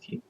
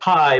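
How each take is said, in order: First: The vowel sounds like 'see'. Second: The vowel sounds like 'eye'. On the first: This is the game's pronunciation, matching the word key. "Kingdom Hearts pronounces key" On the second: This is the usual pronunciation of the Greek letter. "you pronounce it Kai"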